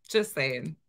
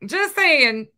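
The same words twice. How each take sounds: First: Said in the usual way. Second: SAYING pitched high, loud and drawn out; emphatic. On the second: Real, not acted. Reactor making a point after watching a clip, loudly emphatic. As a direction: belt out "saying", high then falling.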